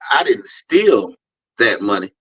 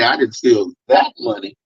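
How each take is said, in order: First: The word "steal" carries the stress. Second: The word "that" carries the stress. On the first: Taking the money was not stealing. "that means I think I'm entitled to the money" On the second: Different money was stolen. "another emphasis on the word that"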